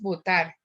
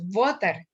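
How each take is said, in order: First: The stress is on the last syllable. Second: The stress is on the first syllable. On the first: The speaker calls it right. "decimos votar" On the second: The speaker calls it wrong. "no tenemos la sílaba tónica sobre la primera sílaba. No decimos votar"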